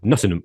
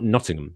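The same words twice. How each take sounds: First: The last syllable is a reduced 'um'. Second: The last syllable is a full 'ham'. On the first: The speaker calls it right. "you have to pronounce it for some reason like there's no A" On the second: The speaker calls it wrong.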